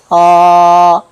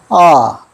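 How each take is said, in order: First: The pitch stays high and level throughout. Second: The pitch falls sharply straight down. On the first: "끝까지 평평하게 가야 됩니다" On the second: "바로 내려갑니다"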